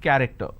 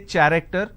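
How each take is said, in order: First: The word begins with a 'k' sound. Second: The word begins with a 'ch' sound. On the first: The speaker calls it right. "I say it character" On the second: The speaker calls it wrong. "I don't say character"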